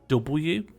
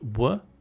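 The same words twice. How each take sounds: First: The letter name is said the English way. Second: The letter name is said the Welsh way. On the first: "in Welsh they don't say W" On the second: "they say W"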